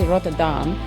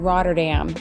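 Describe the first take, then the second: First: It is said with a Dutch pronunciation. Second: It is said with an English pronunciation. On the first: The speaker calls it right. "It's actually Rotterdam" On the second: The speaker calls it wrong. "the way most English-speaking people pronounce it"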